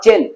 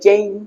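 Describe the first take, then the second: First: The vowel is a short plain 'e'. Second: The vowel glides like 'ay'. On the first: The speaker calls it wrong. "Not চেন" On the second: The speaker calls it right.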